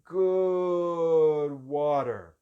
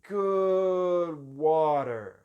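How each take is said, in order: The two takes are said the same way.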